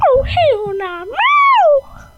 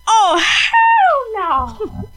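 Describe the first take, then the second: First: High sassy cat shout ending in a piercing meow; be the cat, refusing, then meow it out; loud hammed-up cat voice with a meow. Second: High, slow, drawn-out sassy cat protest; hammed-up cat voice, laughing through it. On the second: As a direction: play the outraged cat refusing bubbles. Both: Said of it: "That's what she said in her cat voice".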